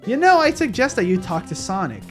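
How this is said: It is read in Cream's mom's voice.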